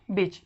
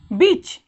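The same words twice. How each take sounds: First: बीच with a short "i", as in bitch; short sound. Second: बीच with a long "ee", as in beach, loud; long sound. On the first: Teacher gives the female-dog word, बीच with short "i". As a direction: cut the vowel of बीच short. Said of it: "ये short sound होते हैं". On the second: Teacher contrasts the riverside word, बीच with long "ee". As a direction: stretch the vowel in बीच. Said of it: "नदी के किनारे". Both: Shown as a demonstration.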